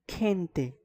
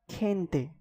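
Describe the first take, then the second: No difference in how they are said.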